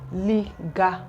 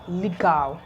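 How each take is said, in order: First: The syllables are drawn out and separated. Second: The syllables are joined smoothly together. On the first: The speaker calls it wrong. "it's going to be too long" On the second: The speaker calls it right. "putting it together"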